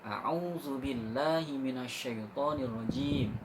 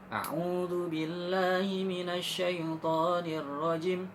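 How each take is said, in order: First: The vowel in the final syllable is held long. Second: The vowel in the final syllable is cut short. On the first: The speaker calls it right. "Jim harus panjang" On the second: The speaker calls it wrong. "Pelit sekali"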